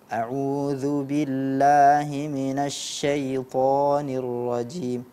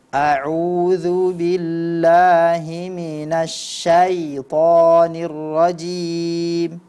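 First: The vowel in 'syai' sounds like 'e'. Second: The vowel in 'syai' sounds like 'a'. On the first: The speaker calls it wrong. "Berganti menjadi e" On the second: The speaker calls it right. "Itu fathah mestilah diucapkan fathah"

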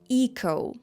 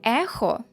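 First: The middle consonant is a plain k sound. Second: The middle consonant is not a k sound. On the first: The speaker calls it right. "а echo" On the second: The speaker calls it wrong. "Не ехо"

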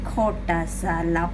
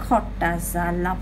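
The two takes are said the same way.

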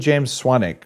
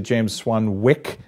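First: The middle W is silent. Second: The middle W is clearly pronounced. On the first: "which is how I introduced you on stage" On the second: "overpronouncing the W"

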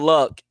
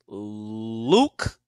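First: The name has a short vowel, like 'luck'. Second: The name has a long 'oo' vowel. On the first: The speaker calls it wrong. "I said your name wrong last time" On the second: The speaker calls it right. "It's Luke"

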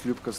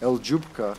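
First: The L and J blend into one 'Ly' sound. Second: A separate 'El' comes before 'Jupka'. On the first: The speaker calls it right. "they can't pronounce Ljupka's name right away because Lya is not a, really a letter" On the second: The speaker calls it wrong. "So I hear often people call her, call her El Jupka"

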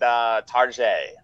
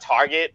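First: It is said with a fancy French-like ending. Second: It is said the plain, ordinary English way. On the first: It makes the store sound upscale. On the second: It is the ordinary store name.

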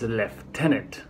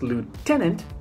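First: The first syllable sounds like 'lef'. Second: The first syllable sounds like 'loo'.

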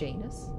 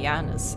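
First: The name is pronounced the English way. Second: The name is pronounced the Dutch way. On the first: "Doesn't sound right" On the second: "I would say Janus in Dutch"

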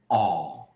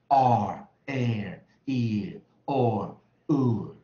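First: The vowels are said with no r sound. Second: Each vowel ends with a clear r sound. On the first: "去儿音的话，英式就这样" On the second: "今天在教的是美式双元音"

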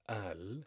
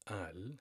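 First: The word begins with a glottal stop. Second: The word begins with a glottal stop.

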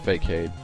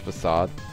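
First: The word ends with a hard 'kade' sound. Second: The word ends with a soft 'sahd' sound. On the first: The speaker calls it wrong. "not Fakeade" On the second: The speaker calls it right. "I think it's Facade"

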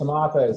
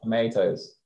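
First: It is said with a British vowel. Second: It is said with an American vowel. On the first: "It's tomatoes" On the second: "and not tomatoes"

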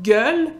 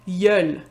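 First: The word starts with a hard G sound. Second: The word starts with a Y sound, Quebec style.

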